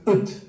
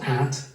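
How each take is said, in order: First: The word has a weak schwa vowel. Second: The word has a full, open vowel. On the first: "but ut, with a schwa" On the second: "not at"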